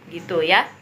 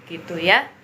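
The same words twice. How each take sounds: Both takes have the same delivery.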